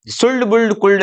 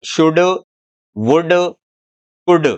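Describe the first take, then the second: First: सुल्ड, बुल्ड, कुल्ड with the L audible before D; higher-pitched सुल्ड, बुल्ड, कुल्ड, each keeping its L; wrong L sounded. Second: शुड, वुड, कुड with no L before D; short, separate words शुड, वुड, कुड, L dropped; silent L. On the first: Teacher rejects the children's reading, sounding the L in सुल्ड, बुल्ड, कुल्ड. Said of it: "नहीं है". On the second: Teacher models the correct reading, शुड, वुड, कुड without L. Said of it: "ये क्या है?". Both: Shown as a demonstration.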